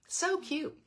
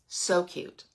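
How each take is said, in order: First: Higher. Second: Said in the usual way. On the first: Real, not acted. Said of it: "second so cute, higher, softer". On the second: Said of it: "repeats the compliment softer".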